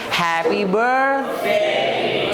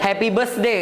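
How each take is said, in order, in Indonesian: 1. Bunyi tengahnya adalah th dengan ujung lidah. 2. Bunyi tengahnya adalah s desis. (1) "bukan S sebenarnya, tapi happy birthday" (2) "kalau kita biasanya happy birthday kan bunyi S"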